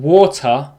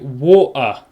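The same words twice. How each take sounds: First: The T in the middle is clearly pronounced. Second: The T in the middle is dropped. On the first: The speaker calls it right. "rather than saying water" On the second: The speaker calls it wrong. "we don't pronounce T"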